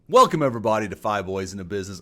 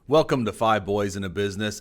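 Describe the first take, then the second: First: It is said with high energy. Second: It is said with low energy.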